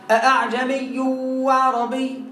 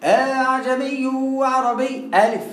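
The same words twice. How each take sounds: First: "أعجمي" with the hamza softened, slow; tasheel demo. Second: "أعجمي" read slowly with a long alif; wrong alif reading. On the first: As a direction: say "أعجمي" slowly, the hamza between hamza and alif. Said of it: "لو واحد قال إيه". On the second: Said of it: "أمال". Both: Shown as a demonstration.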